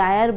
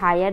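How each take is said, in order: First: The word begins with a vowel sound. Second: The word begins with an H sound. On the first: The speaker calls it right. "आयर बोलते हैं" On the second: The speaker calls it wrong. "ऐसे हायर नहीं बोलते"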